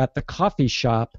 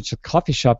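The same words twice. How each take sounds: First: Every sound is carefully and clearly articulated. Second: The sounds run together quickly with less articulation. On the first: The speaker calls it right. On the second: The speaker calls it wrong.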